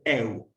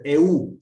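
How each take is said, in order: First: Eu glided as one syllable, weight on the e; one-syllable diphthong. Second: E U as two separate syllables, stress moved onto U; vowels split apart. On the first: Teacher gives students the correct diphthong, eu in one syllable. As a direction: say eu joined, falling away on the u. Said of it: "Tienen que ser siempre eu". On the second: Greek teacher shows students what is no diphthong, E U split. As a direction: say E U as two vowels, U hit louder. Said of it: "No puede ser E U". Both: Shown as a demonstration.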